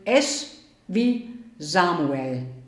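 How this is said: The S is pronounced in a German way. "wenn ihr es wie Deutsche aussprechen wollt"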